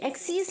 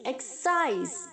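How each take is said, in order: First: The second vowel is an 'ee' sound. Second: The second vowel is an 'eye' sound. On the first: The speaker calls it wrong. "एक्सीज नहीं" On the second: The speaker calls it right. "C I S E है तो सीज नहीं बोलेंगे"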